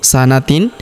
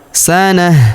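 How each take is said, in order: First: The word ends in a t sound plus n. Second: The word ends in a soft h sound. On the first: The reading continues without stopping. "sanatin kita rubah menjadi sukun" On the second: The reader stops at this word. "karena terdapat tanda wakaf jais atau tempat berhenti"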